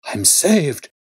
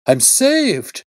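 First: Higher, louder cry of joy; joyful cry. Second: Much higher, louder joyful shriek. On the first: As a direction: burst out with relief. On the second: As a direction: let it break into a shriek. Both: A narrator's reading. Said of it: "With a shriek of joy".

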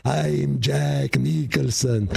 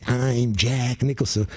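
First: A slow, lightly voiced Jack Nicholson; hacky Jack Nicholson move, drawn out; Jack Nicholson impression. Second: A light hammed-up Jack Nicholson, slow; lightly voiced hacky Jack Nicholson move; Jack Nicholson impression. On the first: Dog puppet with a paw on its forehead, lightly voiced Jack Nicholson. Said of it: "put a little paw over his forehead". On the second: Dog puppet doing a hacky Jack Nicholson, lightly voiced. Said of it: "a Jack Nicholson impersonator".

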